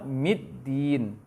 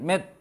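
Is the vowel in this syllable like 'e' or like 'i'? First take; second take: i; e. First: The vowel is pronounced like 'i'. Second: The vowel is pronounced like 'e'. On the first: The speaker calls it right. "Seharusnya apa?" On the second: The speaker calls it wrong. "Terbaca imalah, terbaca e"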